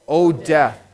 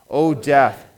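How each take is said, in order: Both takes have the same delivery.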